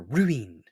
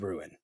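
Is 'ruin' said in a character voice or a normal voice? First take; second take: character voice; normal voice. First: It is said in a put-on cartoon character voice. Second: It is said in the speaker's normal voice.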